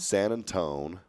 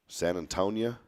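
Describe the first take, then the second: First: The name ends with a clipped "-tone" sound. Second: The name ends with an "-ia" sound.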